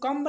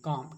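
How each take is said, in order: First: The word ends with an audible b sound. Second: The word ends on m with no b. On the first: The speaker calls it wrong. "इसको कम्ब नहीं कहेंगे" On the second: The speaker calls it right. "एम के बाद बी प्राय silent होता है"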